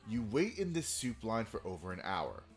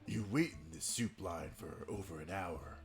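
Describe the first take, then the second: First: It is said in a normal voice. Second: It is said in a deep, gravelly voice.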